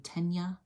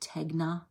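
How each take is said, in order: First: No g sound; the middle sounds like ny. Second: A hard g sound is heard before the n. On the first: It is said the way most people say it. "I hear a lot of people say Tenya" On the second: It is read the way it is spelled. "It looks like Tegna"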